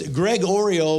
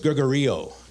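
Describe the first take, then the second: First: It sounds like two words, Greg and Oreo. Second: It sounds like one word with the stress moved. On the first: "It's Greg Oreo" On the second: "we're just going to put the emphasis on the E of Oreo"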